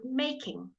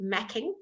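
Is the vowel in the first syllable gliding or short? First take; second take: gliding; short. First: The first vowel is a long gliding 'ay' sound. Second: The first vowel is short, as in 'back'. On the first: The speaker calls it right. "You pronounce it making" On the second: The speaker calls it wrong. "You don't pronounce it macking, that would be M A C K"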